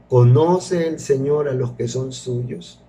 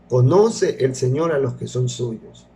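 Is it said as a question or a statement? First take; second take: question; statement. First: It is said with a questioning tune. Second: It is said with a statement tune.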